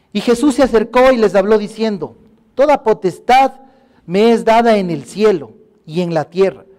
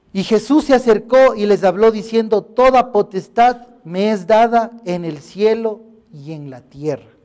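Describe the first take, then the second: The two takes are said the same way.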